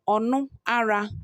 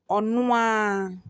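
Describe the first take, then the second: First: The r sound is pronounced in full. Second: The r sound is dropped entirely.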